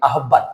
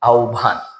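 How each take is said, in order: First: The middle cluster is said as h plus b. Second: The middle cluster is said as u plus bh. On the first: The speaker calls it wrong. "আর একটা শব্দ আছে আমরা বলি আহ্বান" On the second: The speaker calls it right. "এটা হবে কি আহ্বান"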